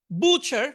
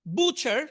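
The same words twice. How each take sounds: First: বুচার said as বুচা with no t; silent t. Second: Said in the usual way. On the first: Shown as a demonstration. Teacher showing the silent letter in বুচার. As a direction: say বুচার with no t sound at all. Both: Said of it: "এখানে থ্রিটা উচ্চারণ হবে না".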